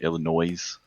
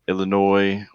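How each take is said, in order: First: The final S is sounded. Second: The final S is silent. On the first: The speaker calls it wrong. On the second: The speaker calls it right.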